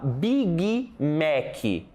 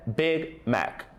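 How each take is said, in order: First: The word endings are drawn out with extra vowels. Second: The word endings are short and clipped. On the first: The speaker calls it wrong. "Olha só como a gente fala Big Mac ... Esse é o problema" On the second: The speaker calls it right. "A pronúncia correta é Big Mac"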